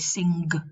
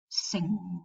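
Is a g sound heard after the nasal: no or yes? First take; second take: yes; no. First: It ends in the nasal followed by a g sound. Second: It ends in the nasal with no g sound. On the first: The speaker calls it wrong. "We don't say sing" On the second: The speaker calls it right. "So we only pronounce the velar nasal"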